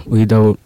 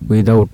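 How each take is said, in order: Both takes have the same delivery.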